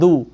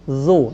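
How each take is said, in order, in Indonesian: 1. Kata ini diawali bunyi d. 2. Kata ini diawali bunyi z. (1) "jangan du" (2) "tapi zu"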